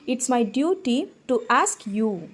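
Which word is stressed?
you. The stress falls on the word you. It is this particular listener who must be asked. "உன்கிட்ட கேட்குறது என்னோட கடமை"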